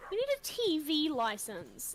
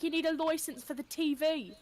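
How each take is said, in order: First: Said in the usual way. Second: Mock British official; exaggerated British nagging; British accent. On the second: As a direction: put on British for the joke. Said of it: "British people be like".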